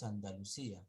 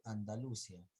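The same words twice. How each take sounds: First: "Andalucía" as an-da-lu-CÍ-a; acento en la Í. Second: "Andalucía" misread as an-da-LU-cia; acento mal puesto. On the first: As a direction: stress CÍ in "Andalucía", splitting i from a. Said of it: "después Andalucía". («Andalucía» con fuerza en CÍ) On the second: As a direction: imitate the misreading of "Andalucía" with stress on LU. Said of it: "Primero dijiste Andalucía". («Andalucía» mal leído, con fuerza en LU) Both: Retold or imitated.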